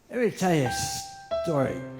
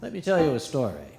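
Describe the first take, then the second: First: It is said in a slurred American accent. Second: It is said in the speaker's plain voice.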